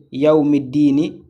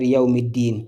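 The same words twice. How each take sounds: First: "Yaoumiddini" with a short i voiced at the end; final vowel sounded. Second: "Yaoumiddin" stopping on a closed n; final vowel dropped. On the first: Teacher showing what not to say at a stop, final vowel sounded. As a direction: keep the closing -ni on "Yaoumiddini". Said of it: "au lieu de dire Yaoumiddini". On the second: Teacher showing the reading at a stop, final vowel dropped. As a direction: end "Yaoumiddin" on the n, no i after it. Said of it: "on va dire Yaoumiddin". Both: Shown as a demonstration.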